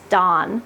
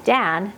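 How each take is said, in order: First: "Don" with an open ah vowel; Dan as Don. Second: Said in the usual way. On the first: Shown as a demonstration. Asking viewers what they hear, "Don" with ah vowel. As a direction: say "Don" as if spelt D-A-H-N. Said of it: "as in D A H N". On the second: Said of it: "say my husband's name".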